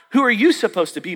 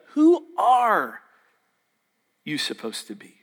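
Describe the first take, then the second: First: "you" carries the weight in a quick question; stress on YOU. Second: Slow question, weight on "are"; stress on ARE. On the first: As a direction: ask it casually, leaning on "you". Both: Shown as a demonstration. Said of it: "just change the emphasis a little bit".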